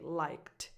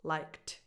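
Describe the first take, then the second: First: The final sound is a voiceless T. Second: The final sound is a voiceless T.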